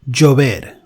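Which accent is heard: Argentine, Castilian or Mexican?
Mexican. The ll is said stronger, Mexican style.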